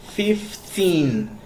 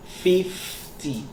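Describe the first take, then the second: First: Put-on "fifteen" pitched high, TEEN drawn out; stress on TEEN. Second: "fifty" pitched high on a long FIF, dropping on ty; stress on FIF. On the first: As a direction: split "fifteen" and hold the final TEEN. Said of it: "the teen sound is, like, stressed out". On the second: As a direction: split "fifty" and lean on the first syllable. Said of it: "you need to stress out on". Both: Shown as a demonstration.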